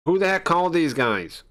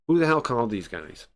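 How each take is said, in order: First: High, loud demand of who called them; an inspector furious at intruders, pitch way up; angry shout. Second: Said in the usual way. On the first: Acted. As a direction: bark it out in outrage.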